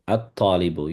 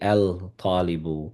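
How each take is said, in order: First: The l merges into a doubled t sound. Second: The l is pronounced before the t sound. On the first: The speaker calls it right. "the same thing applies with the ta" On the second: The speaker calls it wrong. "We we don't say al-talibu"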